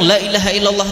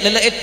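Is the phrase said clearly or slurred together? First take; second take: clear; slurred. First: Every syllable is said clearly and fully. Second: It is rushed and syllables are slurred together. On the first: The speaker calls it right. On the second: The speaker calls it wrong.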